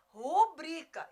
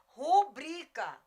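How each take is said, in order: The two takes are said the same way.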